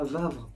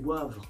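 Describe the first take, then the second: First: The name begins with a V sound. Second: The name begins with a W sound. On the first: The speaker calls it wrong. "C'est pas Vavre" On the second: The speaker calls it right. "c'est Wavre"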